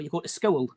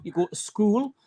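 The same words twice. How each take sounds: First: "school" in the second, contrasting North East vowel variant; change the vowel in "school" to the other local version; contrasting regional vowel. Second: "school" in the first of two North East vowel variants; regional vowel variant. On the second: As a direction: demonstrate one local way of saying the vowel in "school". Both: Shown as a demonstration. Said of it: "there's that old coo".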